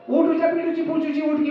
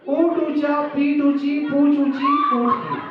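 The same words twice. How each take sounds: First: It is said very fast. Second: It is said at a normal pace.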